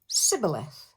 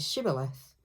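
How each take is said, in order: First: The word begins with an 's' sound. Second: The word begins with an 'sh' sound. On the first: The speaker is an enemy outsider. The speaker calls it wrong. "will actually say Sibboleth, because they can't pronounce the word properly" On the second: This is the correct local pronunciation. The speaker calls it right. "any enemy who tries to say Shibboleth"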